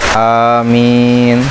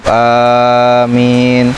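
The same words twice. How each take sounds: First: The first vowel is short and the m single. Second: The first vowel is long and the m single. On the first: "qasar dan takhfif" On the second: "mad dan takhfif"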